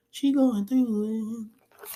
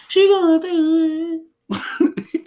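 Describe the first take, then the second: First: High, drawn-out comic lament; mock wailing. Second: Very high, long-drawn hammed-up lament; big mock wail. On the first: Mock wail for grieving mother. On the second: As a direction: push the comic wail higher and louder, stretching every word. Repeats mock wail, bigger.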